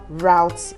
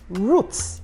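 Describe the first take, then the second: First: The word is said the American way. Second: The word is said the British way. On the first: "route is American English" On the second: "route is British English"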